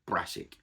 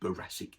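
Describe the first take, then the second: First: The word is said in a shortened form. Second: The word is said in its full form. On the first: It is the everyday, non-posh usage. "we say brassic" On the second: It sounds posh. "We don't say boracic"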